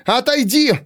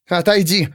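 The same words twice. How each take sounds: First: Very high, desperate order; frantic command. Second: Higher-pitched order to move; first, firmer demand to step aside; insistent command. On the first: Pandora blocked by the servant, frantic high command. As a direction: pitch leaps up in exasperation. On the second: Pandora to the servant blocking her way, insistent command. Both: A narrator's reading.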